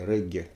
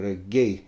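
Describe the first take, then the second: First: It is said the usual local Russian way. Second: It is said closer to the English original.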